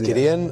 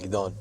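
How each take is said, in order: First: The name is pronounced the English way. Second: The name is pronounced the Hebrew way. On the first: "when I introduce myself in English" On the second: "But in Hebrew, I say Shalom, call me"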